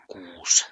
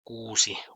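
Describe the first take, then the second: First: The final vowel is dropped; it ends in s. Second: The word ends with a final vowel sound. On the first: "Kuusi or kuus" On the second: "Kuusi or kuus"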